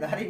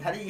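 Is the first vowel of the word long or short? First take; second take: long; short. First: The first vowel is long. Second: The first vowel is short. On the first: The speaker calls it wrong. "धारी नहीं है" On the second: The speaker calls it right. "अरे भैया धरी है"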